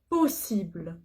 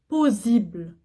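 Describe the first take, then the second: First: The middle consonant is a hissing S sound. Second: The middle consonant is a buzzing Z sound. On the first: The speaker calls it right. "Double S, je prononce ce" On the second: The speaker calls it wrong. "Je dis pas possible. Non, il y a double S"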